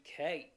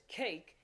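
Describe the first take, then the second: First: "cake" with its a opened into a glide; Southern vowel in cake. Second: Said in the usual way. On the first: Shown as a demonstration. Accent coach showing the change, Southern glided "cake". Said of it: "It'd be cake". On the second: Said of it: "instead of it being just cake".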